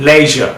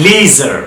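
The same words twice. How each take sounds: First: লেজার as "LEZH-uh"; short "e" and no final R in লেজার; British leisure, R-less লেজার; British pronunciation. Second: লিজার as "LEE-zher"; long "ee" and R ending in লিজার; American leisure, "ee" in লিজার; American pronunciation. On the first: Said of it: "কীভাবে ব্রিটিশে sound করে". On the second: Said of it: "কীভাবে আমেরিকানরা sound করে". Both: Shown as a demonstration.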